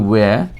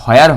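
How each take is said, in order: First: It begins with a plain w sound. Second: It begins with a breathy h before the w. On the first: The speaker calls it right. "এটার উচ্চারণ হবে" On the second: The speaker calls it wrong. "এটা হোয়ার হবে না"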